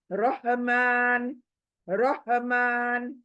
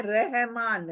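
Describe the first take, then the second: First: रहमान slow, with a full-mouth heavy Arabic R, ro-hmaan. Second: रहमान with a thin light Urdu R, said as in Urdu; Urdu-style Rahman. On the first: Teacher models the correct Arabic, slow full-mouth रहमान. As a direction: stretch रहमान with a thick, rounded R. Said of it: "तो हम क्या बोलेंगे?". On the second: Teacher shows the wrong Urdu way, thin रहमान. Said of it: "It is not रहमान, ये उर्दू हुआ". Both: Shown as a demonstration.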